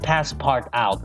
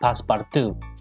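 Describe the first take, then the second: First: The name ends with an 'out' sound. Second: The name ends with a 'too' sound. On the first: The speaker calls it wrong. "not passport out" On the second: The speaker calls it right. "that's how you say it"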